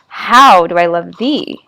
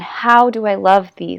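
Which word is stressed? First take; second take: other word; love. First: The stress falls on a word other than love. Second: The stress falls on the word love. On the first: "if you put the stress on different syllables" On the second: "the emphasis is on the word love there"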